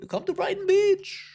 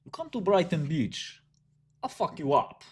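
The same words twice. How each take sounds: First: Put-on very high-pitched Jewish-accent invitation; mock Jewish accent. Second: Put-on high-pitched threat in a Russian accent; Brooklyn Russian accent. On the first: Inviting someone to Brighton Beach, mock Jewish accent. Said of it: "I make the Jewish accent all the time". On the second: Brooklyn Russian threatening a rival, mock Russian accent. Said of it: "I'm Brooklyn Russian".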